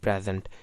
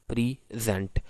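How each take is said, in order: First: The stress is on the first syllable. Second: The stress is on the second syllable. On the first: It is used as a noun. "ये एक noun है" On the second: It is used as a verb. "Stress जो है वो second syllable पर आती है"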